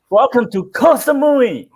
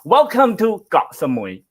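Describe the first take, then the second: First: The island word is said like 'koh'. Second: The island word is said like 'got'. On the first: It sounds more exciting. "So you have to like" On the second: It sounds less exciting. "Then it doesn't sound as exciting"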